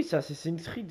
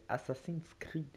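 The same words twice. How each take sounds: First: Said in the usual way. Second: Assassin's Creed spelled out slowly, word by word, unsure; careful slow English name. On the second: Shown as a demonstration. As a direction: slowly sound out "Assassin's Creed" like a French speaker not sure of the English. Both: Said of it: "J'ai pas bien le dire".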